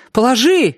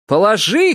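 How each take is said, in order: First: High, sharp exclamation; cried out. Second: High, mock-sinister shout; sinister cry. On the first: Narrator voicing a woman's order, cried out. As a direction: cry it out, pitched well up. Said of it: "крикнула она". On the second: Narrator reading a dubious example, mock-sinister cry. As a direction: cry it out with hammed-up menace. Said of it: "крикнула она зловеще". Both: A narrator's reading.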